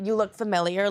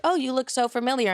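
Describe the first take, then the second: First: Said in the usual way. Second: Flirty opener. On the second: Shown as a demonstration. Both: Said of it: "But I do like a good".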